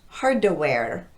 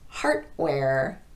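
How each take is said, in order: First: A short vowel is added after the D. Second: The D is voiceless and sounds like T. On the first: "come off of that D with a vowel sound" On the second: "students will devoice the D"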